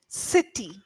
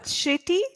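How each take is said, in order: First: The first sound is a hissing 's' sound. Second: The first sound is a hushing 'sh' sound. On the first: The speaker calls it right. "it's actually sir sound" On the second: The speaker calls it wrong. "not shitty"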